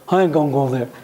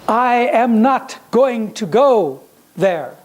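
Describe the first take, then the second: First: The words are slurred and reduced together. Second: Each word is fully and clearly pronounced. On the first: The speaker calls it wrong. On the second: The speaker calls it right.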